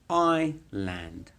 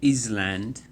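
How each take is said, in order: First: No s sound is heard in the middle. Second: An s sound is heard in the middle. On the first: The speaker calls it right. "It's island" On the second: The speaker calls it wrong. "not Island"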